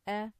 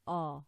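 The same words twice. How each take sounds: First: The vowel is light, as in apple. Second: The vowel is heavy and dark. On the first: The speaker calls it right. "as in apple" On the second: The speaker calls it wrong. "and not a"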